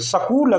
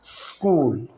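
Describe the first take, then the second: First: A short vowel separates the s and k. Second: A held hissing s runs straight into k. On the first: The speaker calls it wrong. "सकूल अगर हम कहेंगे तो ये गलत तलफ़ुज़ है" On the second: The speaker calls it right. "सीटी की सी आवाज़ थोड़ी देर मुंह में रहेगी और उसके बाद हम कूल बोलेंगे"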